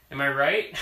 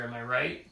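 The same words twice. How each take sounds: First: Laughing repeat, pushed louder; repeating it through a laugh. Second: Said in the usual way. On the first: Shown as a demonstration. Parent teasing child, laughing louder.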